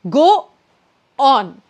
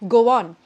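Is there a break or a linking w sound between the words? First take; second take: break; linking w. First: The words are separated by a short stop. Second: The words are joined by a light w sound. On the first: The speaker calls it wrong. "I have to add this awkward, like little unnecessary break" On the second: The speaker calls it right. "I can make a shortcut by not stopping but instead adding a w"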